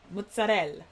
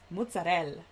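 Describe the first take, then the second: First: It is said with an Italian accent. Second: It is said with an Italian accent.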